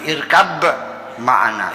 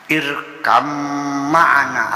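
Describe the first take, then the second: First: The b is kept before the m. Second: The b merges into the following m. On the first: This is the original form before those rules. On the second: This is the form given by the rules of recitation.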